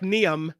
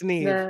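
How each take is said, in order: First: The name is read the way it is spelled. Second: The name is said unlike its spelling. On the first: The speaker calls it wrong. "it's the one that looks like Niam" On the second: The speaker calls it right. "but it it's Niamh"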